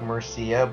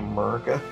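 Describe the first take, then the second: First: The name is read the local Spanish way. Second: The name is read like an English word. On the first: The speaker calls it right. "I know it's probably like Murcia" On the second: The speaker calls it wrong. "I like to say Murcia"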